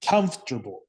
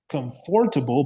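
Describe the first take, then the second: First: "comfortable" shortened to three syllables, KUMF-ter-bul; reduced pronunciation. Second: "comfortable" with a full, stressed FOR in the middle; as spelled. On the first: Teacher modelling how we say it, "comfortable" as KUMF-ter-bul. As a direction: stress the first syllable of "comfortable" and swallow the "or". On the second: Teacher showing what the spelling suggests, "comfortable" with middle syllable stressed. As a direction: say "comfortable" as com-FOR-ta-ble. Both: Shown as a demonstration. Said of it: "but we have to say".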